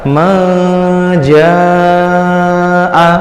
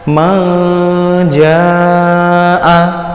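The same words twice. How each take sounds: The two takes are said the same way.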